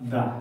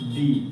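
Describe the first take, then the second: First: The word ends in a short 'uh' vowel. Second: The word ends in a long 'ee' vowel. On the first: The next word starts with a consonant sound. "কেউ কেউ কোনো জায়গায় কি বলে" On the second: The next word starts with a vowel sound. "ভয়েল দিয়ে যদি শুরু হয় তাহলে বলবো দি"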